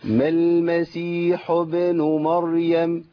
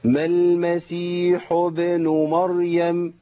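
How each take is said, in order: Both takes have the same delivery.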